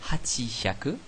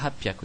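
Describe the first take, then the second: First: Two full parts with a chi sound in between. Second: Two parts fused together with a p sound. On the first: The speaker calls it wrong. "On ne dit pas hachihyaku, qui serait la prononciation logique" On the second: The speaker calls it right. "Non, on dit hapyaku. Il y a une espèce de condensé"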